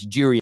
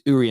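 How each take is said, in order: First: The name starts with a J sound. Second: The name starts with a vowel sound. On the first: The speaker calls it right. "You pronounce the J" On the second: The speaker calls it wrong. "everybody said it's not Jury and Timber"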